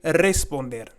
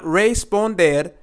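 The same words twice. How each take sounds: First: The first R is rolled. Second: The first R is plain, not rolled. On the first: The speaker calls it right. "we have the double R, so we're going to say re" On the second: The speaker calls it wrong. "Not responder"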